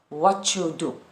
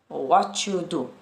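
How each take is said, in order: No difference in how they are said.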